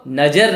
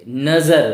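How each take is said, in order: First: नज़र said najar, with j for z; wrong reading with j. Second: नज़र said nazar, with a buzzed z; correct nukta z. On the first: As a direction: mispronounce नज़र with a hard j sound. (नज़र को बिना नुक्ते, नजर बोलें) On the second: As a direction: give नज़र a clear English Z in the middle. (नज़र में नुक्ते वाला ज़ साफ़ बोलें) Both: Shown as a demonstration. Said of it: "हम इसको नज़र नहीं पढ़ेंगे".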